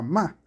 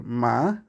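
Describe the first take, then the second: First: MA in a contrasting tone, cut shorter; second tone demo on MA; tono contrastado. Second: MA with one drawn-out tone, as a Chinese tone demo; tono distinto. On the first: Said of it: "no es lo mismo decir ma a ma". («ma» con otro tono, en contraste) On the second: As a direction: demonstrate a lexical tone on MA. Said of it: "depende del tono de cómo tú dices". («ma» alargado con un tono marcado) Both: Shown as a demonstration.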